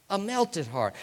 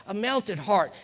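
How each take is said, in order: Both takes have the same delivery.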